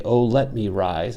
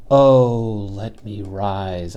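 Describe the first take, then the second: First: "Oh" light, stress on "let" and "rise"; iambic stress. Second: "Oh" stressed as the first, strong beat; trochaic stress on OH. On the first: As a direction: read "Oh, let me rise" in a rising iambic beat. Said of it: "that would be perfectly fine iambic". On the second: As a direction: lead hard on "Oh", then drop back for "let me rise". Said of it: "trochaic inversion". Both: Shown as a demonstration.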